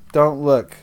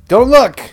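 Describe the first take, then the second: First: Said in the usual way. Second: Loud, high-pitched command; playful shout. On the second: Pretend. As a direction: shout it as a sudden mock warning. Playfully orders viewers not to look.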